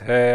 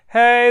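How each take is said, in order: First: It is said in a low chest voice. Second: It is said in a high head voice.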